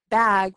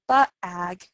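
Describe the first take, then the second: First: The consonant blends straight into the vowel. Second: An extra schwa follows the first consonant. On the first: The speaker calls it right. "instead of bag" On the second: The speaker calls it wrong. "we add a schwa sound"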